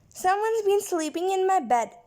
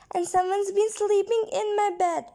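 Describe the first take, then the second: First: It is said in a deep, cross voice. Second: It is said in a tiny, squeaky voice.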